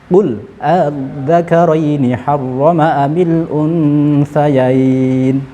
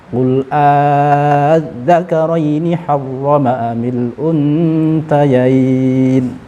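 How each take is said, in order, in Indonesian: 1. Hamza kedua dilunakkan, setengah menuju alif. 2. Hamza kedua menjadi vokal alif panjang. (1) "Kita tashilkan" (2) "Kita ibdalkan"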